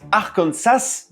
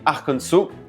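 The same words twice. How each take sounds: First: The final S sound is pronounced. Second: The final S sound is silent. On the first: The speaker calls it wrong. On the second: The speaker calls it right.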